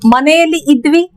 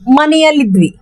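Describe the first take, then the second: First: The two words are said separately. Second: The two words are run together as one.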